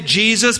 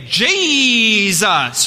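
First: The word is said plainly in two syllables. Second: The word is stretched like a televangelist's.

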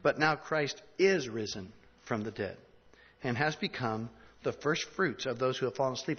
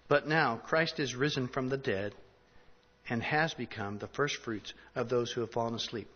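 First: It is read with strong, deliberate emphasis. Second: It is read plainly, without strong emphasis.

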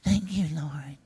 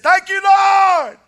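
First: It is said quietly and flatly. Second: It is said loudly and excitedly.

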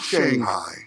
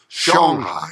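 First: The first syllable rhymes with hang. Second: The first syllable rhymes with song. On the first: The speaker calls it wrong. "not Shanghai" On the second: The speaker calls it right. "It's like song with an H"

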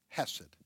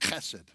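First: It begins with a soft, plain h sound. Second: It begins with a rough, guttural throat sound.

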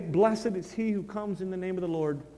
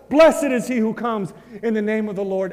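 First: It is said with fear and sorrow. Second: It is shouted loudly with joy. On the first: The speaker submits out of dread. The speaker calls it wrong. "they do it out of fear" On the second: The speaker welcomes the Savior gladly. The speaker calls it right. "we will shout it"

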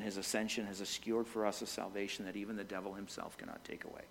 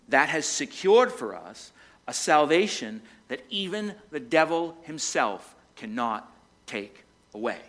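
First: It is said at normal speed. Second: It is said very slowly.

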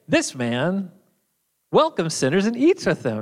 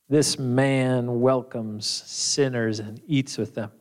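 First: It is said in a warm, approving tone. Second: It is muttered in a scornful, disapproving tone.

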